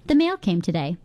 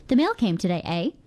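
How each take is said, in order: First: Said in the usual way. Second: The mail came today said plainly, then eh with a small lift at the end; friendly question with eh. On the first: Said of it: "Make a statement". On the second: Shown as a demonstration. Radio host shows listeners how eh turns a statement into a question, with a rising eh. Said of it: "add a to the end and transform that statement into a question".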